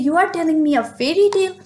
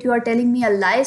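First: Rushed, higher and lighter; euphemistic version. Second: Said in the usual way. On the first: Shown as a demonstration. Teacher giving the softened version to the class, rushed and higher. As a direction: toss it off quickly, pitched up. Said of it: "there you say". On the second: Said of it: "this offensive word or this harsh word".

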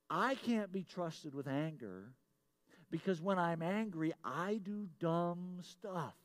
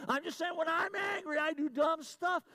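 First: Slow, drawn-out admission at usual volume; measured confession. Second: High-pitched, raised-voice protest; emphatic insistence. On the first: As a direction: confess it slowly, stretching the last words. Confesses, waits for congregation to respond. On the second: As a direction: blurt the confession out high and forceful. Insists again after congregation stays silent. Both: Real, not acted.

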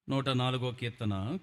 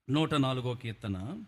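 No difference in how they are said.

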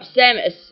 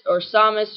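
First: Samus said as "SAM-us" with a short a; corrected Samus. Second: Samus said as "SAH-mus" with a broad ah; mispronounced Samus. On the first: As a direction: Samus fixed to a flat short a. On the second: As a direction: Samus with the wrong open ah vowel. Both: Real, not acted. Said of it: "I messed that up".

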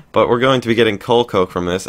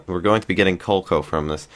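First: Said again louder and clearer; clear restart. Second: Said in the usual way. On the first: Real, not acted. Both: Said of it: "having trouble speaking today".

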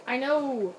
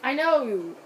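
The two takes are said the same way.

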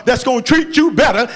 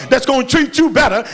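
No difference in how they are said.

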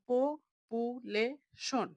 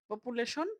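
First: পপুলেশন slowly split as প, পু, লে, শন; four separate beats on পপুলেশন; teacher sounding out পপুলেশন piece by piece; broken into syllables. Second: Said in the usual way. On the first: Shown as a demonstration. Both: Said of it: "ভেঙে ভেঙে".

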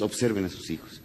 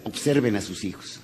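First: Softer, lingering repeat. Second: Said in the usual way. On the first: Shown as a demonstration. Speaker repeats advice to the fathers, softer. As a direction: drop the voice to make it sink in. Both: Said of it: "Señores".

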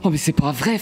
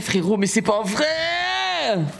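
First: Said in the usual way. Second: Rising, long-drawn cry of disbelief; exasperated wail. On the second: Real, not acted. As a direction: stretch the last word into a wail. Joueur abattu, plainte qui monte. (longue plainte aiguë, incrédule)

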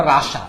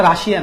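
First: রাশা said ra-sha, no "i"; English-style রাশা, ending straight in "sha"; Russia as two syllables. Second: রাশিয়া with an extra "i" syllable, ra-shi-a; the common Bengali রাশিয়া, ra-shi-a; Russia as three syllables. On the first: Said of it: "উচ্চারণটা রাশা". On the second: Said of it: "উচ্চারণটা রাশিয়া না". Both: Shown as a demonstration.

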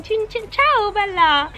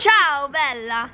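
First: Put-on high, exuberant Italian accent; playful, hammed-up Italian greeting, pitched high. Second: Slow, drawn-out Italian accent; a slower, more convincing Italian greeting. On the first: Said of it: "They just talk like". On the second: Shown as a demonstration. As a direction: savour each word in an Italian accent. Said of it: "Okay, that's better".

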